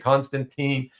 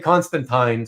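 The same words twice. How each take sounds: First: It is said the North American way. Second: It is said the British way. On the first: The speaker calls it wrong. "we've all been saying it wrong all these years. It's not supposed to be Constantine" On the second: The speaker calls it right. "the Brits overseas say Constantine"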